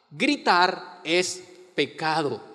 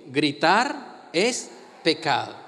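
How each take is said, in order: First: "Gritar es pecado" said slowly, "gritar" stressed with a falling end; slow emphatic statement. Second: "Gritar es pecado" repeated slowly, stress moved onto "es"; firm, deliberate repetition; slow emphatic repeat. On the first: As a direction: lay it down slowly and firmly. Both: Shown as a demonstration. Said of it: "¿Por qué no lo dice conmigo?".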